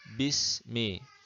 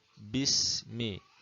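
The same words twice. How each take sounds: No difference in how they are said.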